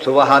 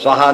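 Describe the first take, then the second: First: A vowel separates the s and v sounds. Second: The s and v sounds are joined together. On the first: "ಸುವಹ ಅಂತ ಓದ್ಬೋದು" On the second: "ಸ್ವಹ ಅಂತ ಓದ್ಬೋದು"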